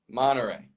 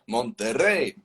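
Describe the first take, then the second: First: The T sound blends away after the N. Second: The T sound is clearly pronounced after the N. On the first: "it's just drop the T out of it" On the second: "But in Spanish"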